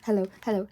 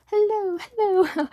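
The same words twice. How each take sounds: First: Said in the usual way. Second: Hello, hello pitched way up and louder, falling at the end; playful high-pitched greeting; high sing-song hello. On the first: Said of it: "greeting intro". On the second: Acted. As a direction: chirp hello, hello up high like a cartoon host. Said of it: "sing-song intro greeting".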